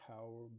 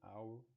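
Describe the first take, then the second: First: The word begins with an audible h sound. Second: The word begins without any h sound. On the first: The speaker calls it wrong. "we don't say hour" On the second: The speaker calls it right. "but we say hour"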